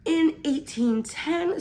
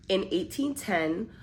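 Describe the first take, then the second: First: Slow, high mock British accent; playful British accent. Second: Said in the usual way. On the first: Reading a Victorian-era summary in a mock British accent. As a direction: put on a posh British accent for a period piece. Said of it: "I feel like I have to do an accent with it". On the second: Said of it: "I'm joking".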